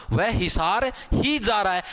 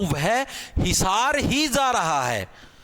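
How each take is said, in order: First: ही stressed, slowish pace. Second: ही hit hard, phrase very slow; stress on ही. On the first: Teacher repeating example, stress on ही. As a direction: repeat it, leaning on ही. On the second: Teacher's second example, slow stress on ही. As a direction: draw it out, pushing ही. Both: Shown as a demonstration. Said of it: "ही ने इसके ऊपर जोर डाला".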